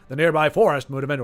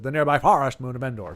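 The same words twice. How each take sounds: First: It is said in a plain voice. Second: It is said imitating Ackbar's odd pronunciation.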